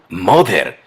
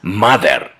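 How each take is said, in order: First: The first vowel sounds like a rounded o. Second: The first vowel sounds like an open a. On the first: The speaker calls it wrong. "la pronuncian mother" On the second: The speaker calls it right. "Lo correcto es mother"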